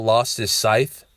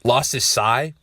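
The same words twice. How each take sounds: First: "scythe" said with a final th sound; mispronounced "scythe". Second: "sai" with no final consonant, rhyming with sigh; corrected "sai". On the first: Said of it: "That bitch said scythe". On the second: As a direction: end "sai" on the open vowel. Corrects the weapon's name. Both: Shown as a demonstration.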